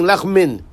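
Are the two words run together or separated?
run together. The two words are run together. The speaker calls it wrong. "swallowing both words together"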